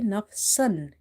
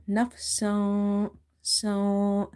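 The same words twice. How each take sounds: First: Nafsan with the n fully sounded; nafsan, the n said clearly, the wrong way. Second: Nafsan slowly with the n hidden into the nose; hidden n, ikhfa. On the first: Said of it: "it will be wrong". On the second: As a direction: hide the n of nafsan, stretch it a little. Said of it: "ikhfa here". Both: Shown as a demonstration.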